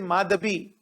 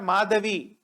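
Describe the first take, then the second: First: The middle consonant is a b sound. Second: The middle consonant is a v sound. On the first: The speaker calls it right. "it is Madhabi. ... V they pronounce as B" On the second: The speaker calls it wrong. "It is not Madhavi"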